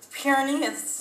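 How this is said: The word is said in a mock Swedish accent. The speaker calls it wrong. "not in Swedish"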